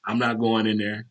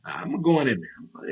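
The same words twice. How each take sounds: First: Said in the usual way. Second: Drawn-out, higher-pitched resolve; slow and sure of going in; game to go in. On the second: Acted. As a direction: stretch it out, eager to walk in. Contrasts it with his bold attitude.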